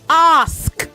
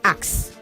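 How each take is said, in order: First: The s sound comes before the k. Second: The k sound comes before the s. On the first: The speaker calls it right. "The S is before the K. It is sk" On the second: The speaker calls it wrong. "not x"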